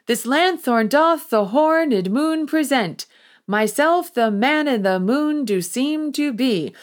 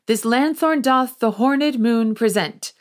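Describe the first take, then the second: First: Slower, deliberate, higher second attempt; trying again. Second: Starveling reads his line a bit raised and quick; an amateur actor announcing himself; first try at the line. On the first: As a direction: start over carefully, leaning on doth and myself. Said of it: "as Moonshine tries again". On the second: Acted. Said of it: "In comes Starveling and says".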